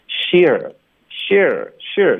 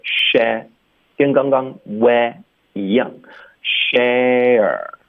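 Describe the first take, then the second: First: "share" narrowed toward "sheer", jaw still; mock student error. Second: "share" slow, with wide open "eh" gliding into r; open-mouthed vowel. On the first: Teacher mimicking students' mistake, narrow "share". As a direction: imitate students saying "share" with a nearly closed mouth. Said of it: "很多的学生喜欢发成". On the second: Shown as a demonstration. Teacher correcting students, wide open drawn-out "share". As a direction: drop the jaw on "share". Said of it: "要张嘴".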